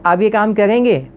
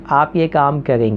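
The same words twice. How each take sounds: First: The pitch rises, sounding like a question. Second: The pitch stays flat throughout.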